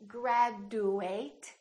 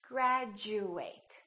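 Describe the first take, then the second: First: The consonant before 'u' is a plain d. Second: The consonant before 'u' sounds like j. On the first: The speaker calls it wrong. "we don't say" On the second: The speaker calls it right. "It sounds like we're saying"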